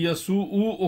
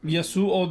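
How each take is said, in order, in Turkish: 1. Son ünlü uzatılarak uzun u olarak okunur. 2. Son ünlü kısa okunur. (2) "değil"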